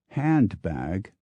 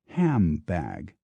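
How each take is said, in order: First: The first syllable ends with a clear n sound. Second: The first syllable ends with an m sound.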